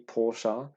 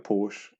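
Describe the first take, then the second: First: The name is said the standard non-British way. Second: The name is said the usual British way. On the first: The speaker calls it right. "It should be Porsche" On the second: The speaker calls it wrong. "we always called it a Porsche. It is an incorrect way of actually pronouncing it"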